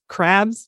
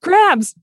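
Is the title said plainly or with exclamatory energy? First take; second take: plainly; exclamatory. First: It is said plainly, without extra energy. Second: It is said loudly, with exclamatory energy.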